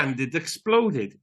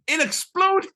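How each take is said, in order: First: Said in the usual way. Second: Much higher, excited squeal. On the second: Real, not acted. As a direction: shriek it with glee. Excited repeat of the punchline.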